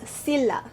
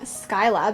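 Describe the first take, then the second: First: The first syllable sounds like 'sill'. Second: The first syllable sounds like 'sky'. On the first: This is the original Greek pronunciation. The speaker calls it right. "the actual Greek pronunciation is Scylla" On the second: This is the version a search result gave. The speaker calls it wrong. "I was saying Skyla because that's what Google told me"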